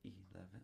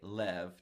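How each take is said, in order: First: The word is said with three full syllables. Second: The word is cut to one short syllable. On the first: The speaker calls it wrong. "which is three syllables" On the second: The speaker calls it right. "I say lev to make it just one syllable"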